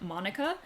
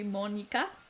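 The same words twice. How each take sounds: First: The name is said with an English pronunciation. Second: The name is said with a Japanese pronunciation. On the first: "I want to say it like the English way" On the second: "what I hope is proper Japanese pronunciation"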